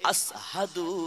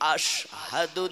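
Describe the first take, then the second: First: The middle consonant is pronounced as 's'. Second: The middle consonant is pronounced as 'sh'. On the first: The speaker calls it wrong. "আসহাদু হইয়া যায়" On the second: The speaker calls it right. "আশহাদু না হয়ে"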